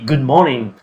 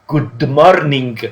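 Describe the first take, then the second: First: Said the English way, with silent letters dropped. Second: Said the Italian way, sounding out every letter. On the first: "Generally you say good morning" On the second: "we are going to read every single letter into the word"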